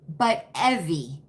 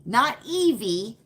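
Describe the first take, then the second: First: "Evie" said as EH-vee, short e; the right Evie. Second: "Evie" said as EE-vee, long ee; not this Evie. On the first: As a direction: Evie with a short eh sound, falling. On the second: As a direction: Evie with a long ee sound, rising. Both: Shown as a demonstration. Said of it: "Not Evie, but Evie".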